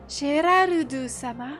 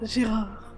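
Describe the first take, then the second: First: The name is said with a Japanese accent. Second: The name is said with a French accent. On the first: "Genre en japonais, c'est euh" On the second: "alors que nous, c'est euh"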